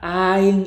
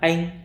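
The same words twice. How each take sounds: First: The word is drawn out long. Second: The word is said short and clipped. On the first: The speaker calls it wrong. "이렇게 하시면 틀린 번역입니다" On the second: The speaker calls it right. "짧게 해볼까요?"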